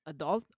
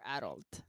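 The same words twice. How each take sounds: First: "adult" with schwa, stress on second syllable; "adult" said uh-DULT; pronunciation "adult". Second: "adult" with open a, stress on first syllable; "adult" said AD-ult; pronunciation "adult". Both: Shown as a demonstration. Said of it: "Do you pronounce".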